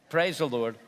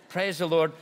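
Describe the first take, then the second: The two takes are said the same way.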